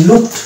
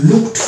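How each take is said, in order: No difference in how they are said.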